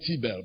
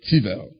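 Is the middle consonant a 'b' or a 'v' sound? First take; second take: b; v. First: The middle consonant is a 'b' sound. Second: The middle consonant is a 'v' sound. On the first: The speaker calls it wrong. "Not Tibel" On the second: The speaker calls it right. "but Tibel"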